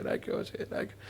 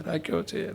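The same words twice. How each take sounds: First: રાખ્યો છે whispered, fading away; whispered prayer echo. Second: Softly intoned રાખ્યો છે; echoed prayer line. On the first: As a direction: breathe the last words out as a whisper. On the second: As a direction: let the prayer settle quietly. Prayer ending, repeated. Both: Acted.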